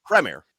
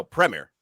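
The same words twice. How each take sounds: First: "Premier" said PREM-ee-er, stress up front; British Premier. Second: "Premier" with a short e, PREM-eer; British Premier. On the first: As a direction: correct him with "Premier". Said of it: "You got it wrong both times". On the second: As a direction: insist on "Premier". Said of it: "No, Premier". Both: Shown as a demonstration.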